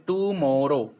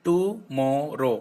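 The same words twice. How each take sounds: First: Said in the usual way. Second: टुमारो said slowly, split into three beats; three-syllable clap demo. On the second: Shown as a demonstration. Teacher showing pupils the three claps in टुमारो, slow. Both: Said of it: "thrice में तीन बार clap करनी है".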